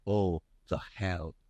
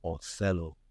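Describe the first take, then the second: First: "Oh, the hell" said slowly as three separate words; split apart. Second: Said in the usual way. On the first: Shown as a demonstration. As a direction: break "Othello" into "Oh, the hell", slowly and deliberately. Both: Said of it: "It's in the title".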